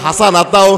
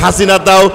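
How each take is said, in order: First: The second vowel is pronounced as a. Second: The second vowel is pronounced as i. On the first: The original wording of the verse. The speaker calls it right. "যেখানে কয় হাসানাতাও" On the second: A distorted reading that inserts a name. The speaker calls it wrong. "ওখানে কয় হাসিনাতাও"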